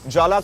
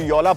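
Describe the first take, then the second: First: The name begins with a J sound. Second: The name begins with a Y sound. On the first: The speaker calls it wrong. "जे को फिनलैंड में साइलेंट माना जाता है" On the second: The speaker calls it right. "जोला को योला प्रोनाउंस करते हैं"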